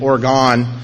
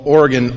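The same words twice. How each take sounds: First: Oregon is said in the Fargo pronunciation. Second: Oregon is said in the local pronunciation.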